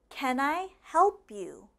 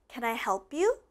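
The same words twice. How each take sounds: First: It is said slowly. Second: It is said fast.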